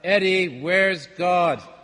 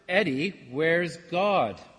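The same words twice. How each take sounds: First: It is said loudest of all. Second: It is said somewhat louder.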